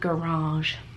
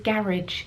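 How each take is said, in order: First: It is said with a North American pronunciation. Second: It is said with a British pronunciation. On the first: "instead of garage" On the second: "I am going to say garage"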